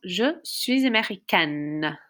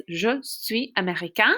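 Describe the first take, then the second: First: Américaine with a long, clearly sounded final N; feminine pronunciation. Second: Américain ending on a nasal vowel with silent N; masculine pronunciation. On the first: Teacher models the girls' sentence, américaine with sounded N. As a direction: link suis with a Z, end américaine "-kenn". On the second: Teacher models the boys' sentence, américain with silent final N. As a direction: stop américain before any N is heard. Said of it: "So boys". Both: Shown as a demonstration.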